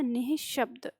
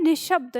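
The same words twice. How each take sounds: First: निःशब्द with a clear breathy visarga after नि; correct pronunciation. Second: निशब्द said plainly, with no visarga break; the mistaken form, read as written; wrong spelling read out. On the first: Teacher models the correct निःशब्द for the class, visarga voiced. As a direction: sound the ह-like visarga: नि-ह-शब्द. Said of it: "ये होता है निःशब्द". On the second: Teacher reads the wrong word निशब्द to the class, no visarga. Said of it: "निशब्द कैसे गलत हो गया?". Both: Shown as a demonstration.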